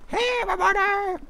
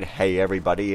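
First: Very high, loud squeaky greeting; high-pitched cartoon character. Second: Said in the usual way. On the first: Cartoon characters popping from the screen corner, high-pitched silly voice. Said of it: "in a really high-pitched voice". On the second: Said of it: "That's what they say".

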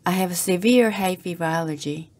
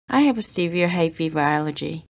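Both takes have the same delivery.

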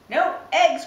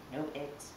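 First: Loud, much higher shocked cry. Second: Said in the usual way. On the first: Acted. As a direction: yell it in shocked disbelief. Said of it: "cried Farmer Brown".

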